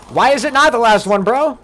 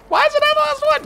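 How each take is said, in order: First: Louder, raised-voice disbelief; incredulous protest. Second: Very high, squeaky whine on the whole line; squeaky mock disbelief. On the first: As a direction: demand an answer, half laughing. Reacting to donation message. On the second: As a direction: pitch it way up like a cartoon. Repeats the protest, squeakier. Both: Real, not acted.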